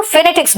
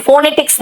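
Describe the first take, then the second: First: फोनेटिक्स as fuh-NET-iks; reduced first vowel फोनेटिक्स. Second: फोनेटिक्स as foh-netiks; full o in फोनेटिक्स. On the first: Teacher modelling the right term, fuh-NET-iks फोनेटिक्स. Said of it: "देखो फोनेटिक्स बोलते हैं". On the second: Teacher showing the wrong term, full-o फोनेटिक्स. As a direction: round out the first o of फोनेटिक्स. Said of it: "फोनेटिक्स नहीं बोलते". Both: Shown as a demonstration.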